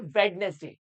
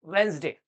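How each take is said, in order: First: The middle d and e sounds are pronounced. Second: The middle d and e sounds are dropped. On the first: The speaker calls it wrong. "This is a incorrect way" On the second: The speaker calls it right. "इसका जो correct way है वो है वेंसडे"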